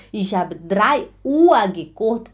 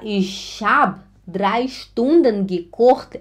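First: Said in the usual way. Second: Slow, careful Stunden; teacher giving the right form; slow correct model. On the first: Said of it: "é errado". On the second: Shown as a demonstration. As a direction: model the correct sentence slowly. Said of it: "é correto".

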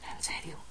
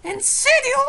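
First: Breathless unvoiced whisper; disbelieving whisper. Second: Very high loud cry; shrieking disbelief. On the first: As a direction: whisper it in shock. (susurro incrédulo) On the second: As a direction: shriek it in shock. Shrill disbelief. (grito incrédulo) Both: Real, not acted.

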